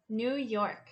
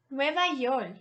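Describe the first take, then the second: First: Said in the usual way. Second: Spanish Nueva York, stress on Nueva; model phrase. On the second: Shown as a demonstration. Teacher repeats Nueva York for learners. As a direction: split Nueva York clearly.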